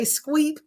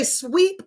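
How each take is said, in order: First: "squeep" with a k sound after the s; childhood mispronunciation. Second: Said in the usual way. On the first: Shown as a demonstration. Speaker showing childhood slip, mispronounced "squeep". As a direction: say "squeep", adding a k to sweep. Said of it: "I used to say squeep". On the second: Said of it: "instead of say sweep".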